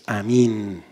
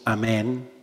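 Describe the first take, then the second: First: It is said the Aramaic way, Amín. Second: It is said the usual Spanish way, Amén. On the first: "Amín en arameo" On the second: "cuando decimos Amén"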